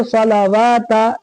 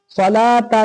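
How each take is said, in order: First: सलावाता with an added "waa" syllable after "la"; common misreading. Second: सलाता with long "laa", no "waa" syllable; correct silent-waw reading. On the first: Teacher mimicking how people misread it, waw pronounced. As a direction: sound out the waw slowly in सलावाता. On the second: Teacher giving the proper Quran reading, waw silent. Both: Shown as a demonstration. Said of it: "लोग क्या पढ़ते हैं?".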